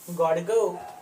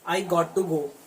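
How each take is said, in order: First: The phrase is squeezed into two short syllables. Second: Every word of the phrase is said in full. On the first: "उसके बाद गॉड गो"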